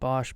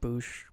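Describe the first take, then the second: First: The vowel is a short 'o' as in Bosch. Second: The vowel is a long 'oo' as in boot. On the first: "I've always pronounced it Bosch" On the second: "Is it Boosh?"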